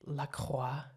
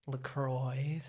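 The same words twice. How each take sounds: First: LaCroix as la-KWAH, French style. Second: LaCroix as la-CROY, English r and oy; American LaCroix. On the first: Explaining the French name to a friend, la-kwah. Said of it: "it's the cross in French". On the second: Correcting a friend, first the usual American la-croy. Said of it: "I hate when people say LaCroix". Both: Shown as a demonstration.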